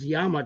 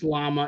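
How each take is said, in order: First: The word begins with a Y sound. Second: The word begins with an L sound. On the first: The speaker calls it right. "It's pronounced Yama. Two L's in that language is a Y" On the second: The speaker calls it wrong. "It's not even pronounced llama"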